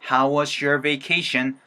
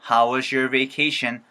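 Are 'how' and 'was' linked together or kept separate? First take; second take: linked; linked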